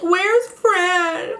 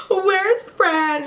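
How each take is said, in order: First: Imitating a tearful plea, pitched higher; mock crying. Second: Imitating a gasping tearful plea, pitched higher; gasp, then ask again through mock tears; mock crying with a gasp. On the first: Big Key crying while looking for Fran, mock tearful. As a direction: mimic a sobbing search for a friend. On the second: Big Key crying while looking for Fran, gasping mock sob. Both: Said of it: "And she's crying her eyes out".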